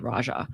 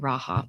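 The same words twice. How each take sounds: First: The name is said with an English pronunciation. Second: The name is said with a Spanish pronunciation. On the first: The speaker calls it right. "it's definitely Raja" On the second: The speaker calls it wrong. "that would be like Spanish pronunciation"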